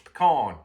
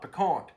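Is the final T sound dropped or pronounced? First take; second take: dropped; pronounced. First: The final T sound is dropped. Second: The final T sound is pronounced. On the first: The speaker calls it right. "you got to re- ignore that T" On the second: The speaker calls it wrong. "It's not piquant"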